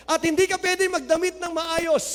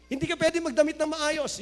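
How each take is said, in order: First: Hindi hit hardest, falling close; stress on hindi. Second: Pwede carries the weight, softer take; stress on pwede. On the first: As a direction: lean on the word hindi to forbid. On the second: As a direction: repeat it quieter, leaning on pwede. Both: Shown as a demonstration.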